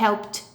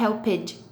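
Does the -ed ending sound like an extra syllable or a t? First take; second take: t; extra syllable. First: The ending is said as a short t. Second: The ending is said as an extra syllable. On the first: The speaker calls it right. "eu vou falar helped ... ele vai ter um som de T" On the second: The speaker calls it wrong. "eu não vou falar helped"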